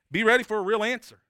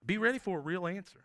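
First: Raised and loud, pressing the point; loud call. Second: Said in the usual way. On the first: Real, not acted. Preacher urges listeners to expect God's answer, loud and raised. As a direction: hit it hard to the congregation.

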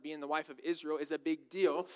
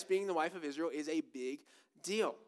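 First: Said in the usual way. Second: "big", a beat, then "deal" set apart for weight; pause before DEAL. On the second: Real, not acted. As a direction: hold back "deal" with a short pause after "big". Repeats phrase for emphasis.

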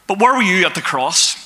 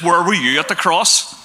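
First: The word "where" hit firmly, the rest even; stress on where. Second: The word "were" leaned on, rising question at the end; stress on were. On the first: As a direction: push the word "where" as a challenge. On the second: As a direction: ask it with weight on "were". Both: Shown as a demonstration.

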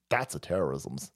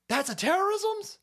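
First: Said in the usual way. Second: High rising question on terrorism's; terrorism's pushed way up in disbelief; mock incredulous question. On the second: Shown as a demonstration. Host mocking the phrase in high disbelief.

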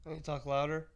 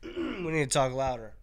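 First: Said in the usual way. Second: Raised voice, slower; talking louder. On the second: Real, not acted. Streamer pitching it to be heard, louder. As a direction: project it slowly for the mic.

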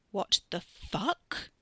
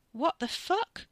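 First: Very slow, numb disbelief; dazed. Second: High, stunned disbelief; shocked. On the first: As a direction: drag it out, stunned and numb. Katie repeats, dazed. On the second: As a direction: blurt it out in shock. Katie shocked by brother's act. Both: A narrator's reading.

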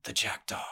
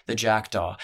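First: The jackdaw named in a hushed, breathy hush; hushed whisper. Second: Said in the usual way. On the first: A narrator's reading. Narrator naming the feared boss in a hushed whisper. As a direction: breathe it as a near-whispered name.

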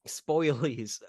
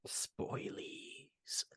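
First: Said in the usual way. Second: Breathy stage whisper on "Spoilies"; playful hushed spoiler alert. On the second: Pretend. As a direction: whisper "Spoilies" like a secret warning. Mock spoiler warning whispered.

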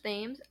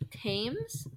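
First: Thames said with TH as in thin; "Thames?" starting with a soft TH, rising; TH sound. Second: Thames said with a hard T, like "tames"; "Thames?" with a plain T sound, rising. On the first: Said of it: "Then it's Thames". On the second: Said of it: "Is it T H?". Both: Shown as a demonstration.

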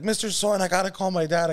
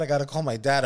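First: Put-on higher, urgent plea of a scared boy; panicked kid. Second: Said in the usual way. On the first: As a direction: beg to use the phone, frantic. Panicked kid begging shopkeeper.

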